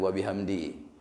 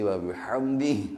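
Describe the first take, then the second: First: The last word ends without a final h sound. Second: The last word ends with an audible h sound. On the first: The speaker calls it wrong. "Jangan wa bihamdi" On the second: The speaker calls it right. "Mesti wa bihamdih, ada huruf ha hujung"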